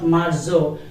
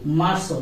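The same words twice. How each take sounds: First: The z is said like a buzzing English z. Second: The z is said with a soft s-like sound. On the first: The speaker calls it wrong. "not Marzo" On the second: The speaker calls it right. "this letter name is Zeta and it will be pronounced like so"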